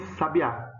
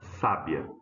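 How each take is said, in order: First: The stress is on the third syllable. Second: The stress is on the first syllable. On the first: The name of a bird. "que é o pássaro" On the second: The feminine of wise. "a sílaba tônica é essa, né? Ó, sa"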